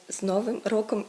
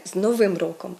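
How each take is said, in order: First: Новим stressed on НО-; habitual first-syllable stress. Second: Новим stressed on the last syllable, -вим; correct end stress. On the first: Teacher quotes the habitual mistake, Новим stressed on НО. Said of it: "як ми це все звикли робити". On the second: Teacher models the correct greeting, новим stressed on the ending. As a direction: say з Новим роком hitting the -ИМ. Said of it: "треба казати". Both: Shown as a demonstration.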